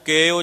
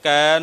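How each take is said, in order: First: The vowel is the close 'e' sound. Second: The vowel is the open 'ai' sound. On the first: The speaker calls it wrong. "ਕੈ ਨੂੰ ਕੇ ਉਚਾਰਨ ਕੀਤਾ, ਲਾਂ ਲਾ ਕੇ" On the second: The speaker calls it right. "ਕੈ ਜਾਣੈ ਗੁਰਸੂਰਾ ਦੀ ਥਾਂ ਤੇ"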